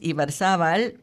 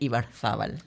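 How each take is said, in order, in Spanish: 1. Se dice con pronunciación latinoamericana. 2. Se dice con pronunciación del español de España.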